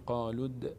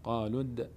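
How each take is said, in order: First: The final d is released with a bouncing echo. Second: The final d is released with a bouncing echo.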